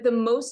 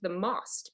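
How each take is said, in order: First: Most is said like the English word. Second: Most is said with a Czech pronunciation. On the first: The speaker calls it wrong. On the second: The speaker calls it right.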